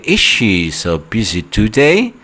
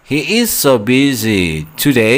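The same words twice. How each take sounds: First: "Is she so busy today?" slow, rising at the end; question intonation. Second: "He is so busy today" with a falling statement tune, slow. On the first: Teacher shows students the question tune, rising. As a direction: lift the end like a real yes-no question. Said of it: "jangan lupa intonasinya, intonasi bertanya". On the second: Teacher shows students the statement, falling tune. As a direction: say it as a flat statement ending down. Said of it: "jangan lupa intonasinya". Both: Shown as a demonstration.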